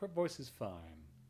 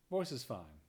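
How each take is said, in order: First: The voice is softer and sinks down. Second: The voice is projected with more nasality. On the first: The speaker calls it wrong. "you can kind of feel it sinks" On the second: The speaker calls it right. "if I get to project, have a little bit more nasality"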